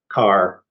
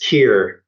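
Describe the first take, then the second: First: The word rhymes with 'car', an American pronunciation. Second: The word rhymes with 'care', a British pronunciation. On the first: "in America it's car" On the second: "in England it's it's Kier"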